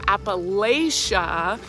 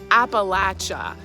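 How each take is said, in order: First: The word does not end like 'apple at ya'. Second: The word ends like 'apple at ya'. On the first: The speaker is from the north or the west. "they're probably getting that from the northern part of the state" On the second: The speaker is from central or southern Appalachia. "like throw an apple at ya"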